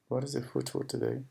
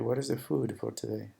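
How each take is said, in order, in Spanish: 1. La vocal de food es corta, como en foot. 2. La vocal de food es larga y alargada. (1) "está como que es pronunciando de esta forma. ¿Cuál es el pie para hoy?" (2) "tratar de ser un poco más claro"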